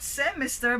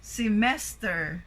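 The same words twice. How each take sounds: First: Semester stressed on SE at the front; misplaced stress. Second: Semester stressed on MES; light first syllable, strong MES in semester; correct middle stress. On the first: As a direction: wrongly say SE-mester. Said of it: "it's not semester". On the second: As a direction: say se-MES-ter. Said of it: "but it should be semester". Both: Shown as a demonstration.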